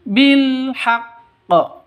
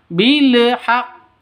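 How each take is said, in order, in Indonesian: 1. Bunyi l ditahan, lalu dilepas menjadi h. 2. Bunyi l dipantulkan dengan vokal tambahan. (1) "lam matinya ditahan, dikeluarkan, dilepas berbarengan dengan mengucapkan ha" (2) "jangan ditawalludkan alif alif lamnya ya. Bilhaqq jangan seperti itu"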